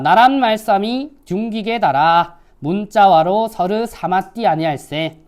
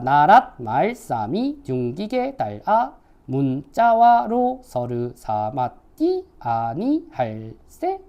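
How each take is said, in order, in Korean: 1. 평범한 현대식의 평평한 음높이로 읽습니다. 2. 뚜렷하게 오르내리는 성조로 읽습니다.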